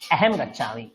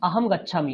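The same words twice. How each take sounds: First: The key vowel sounds like 'e'. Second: The key vowel sounds like 'o'. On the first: This is how people in northern India say it. "ওরা অ বলে না, ওরা বলে এ" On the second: This is how people in this region say it. "আমরা বলি আহম"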